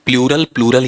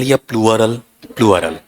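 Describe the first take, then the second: First: "प्लूरल" in two syllables, ploo-ral; wrong pronunciation. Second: "प्लूरल" with a glide, ploo-uh-ral; correct pronunciation. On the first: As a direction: say "प्लूरल" with a plain oo straight into r. ("प्लूरल" का गलत उच्चारण, "प्लू-रल") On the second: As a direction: stress and stretch "प्लूरल" as "प्लुअ-रल". ("प्लूरल" का सही उच्चारण, "प्लुअरल") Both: Shown as a demonstration. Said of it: "आपका pronunciation सुधरना चाहिए".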